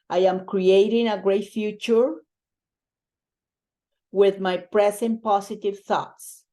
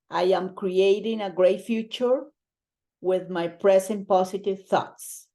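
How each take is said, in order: Both takes have the same delivery.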